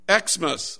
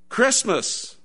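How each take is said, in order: First: The word begins with the letter name ex. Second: The word begins with the sound kris. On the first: The speaker calls it wrong. "I'm saying it wrong" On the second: The speaker calls it right. "It's to be pronounced in full"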